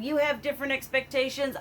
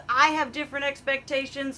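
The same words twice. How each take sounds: First: "have" leaned on in "You have different expectations", quick; stress on have. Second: "I" leaned on in "I have different expectations"; stress on I. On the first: Telling viewers their needs differ, weight on "have". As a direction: push the word "have". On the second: Comparing herself to viewers, stress on "I". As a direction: hit the word "I" to set it apart. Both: Real, not acted. Contrasting your versus my expectations.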